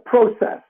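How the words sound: It is said with a Western Canadian pronunciation. "I gave one from Western Canada"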